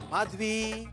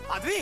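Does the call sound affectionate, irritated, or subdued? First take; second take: affectionate; irritated. First: The name is called sweetly and lovingly. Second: The name is called out in irritation.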